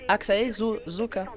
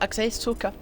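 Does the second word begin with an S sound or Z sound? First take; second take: Z sound; S sound. First: The second word begins with a buzzing z sound. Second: The second word begins with a hissing s sound. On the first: "le S entre deux voyelles ça fait Z" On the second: "Et ça fait pas Axae Soka"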